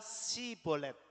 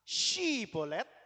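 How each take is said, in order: First: The word begins with an s sound. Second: The word begins with an sh sound. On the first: The speaker calls it wrong. "Jadi tidak dapat mengucapkannya dengan tepat" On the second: The speaker calls it right. "Yang pertama tadi katanya apa?"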